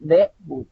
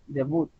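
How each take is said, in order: First: Debut said the wrong way, final t dropped, slow and deliberate; deliberately wrong debut, t dropped; wrong pronunciation. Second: Debut with the stress on the last syllable and a clear final t; correct pronunciation. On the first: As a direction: show the mistake: debut without its closing t. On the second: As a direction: give the right version: debuT, stressed at the end. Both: Shown as a demonstration. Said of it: "No es debut, sino es debut".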